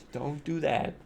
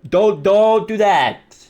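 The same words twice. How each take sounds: First: Hushed warning. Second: Slow, drawn-out, raised-pitch plea; emphatic warning. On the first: Warning viewers off smoking, hushed aside. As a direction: drop the volume right down. Same warning repeated under the breath. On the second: Warning viewers off smoking, slow emphatic plea. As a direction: stretch each DON'T out firmly. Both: Real, not acted.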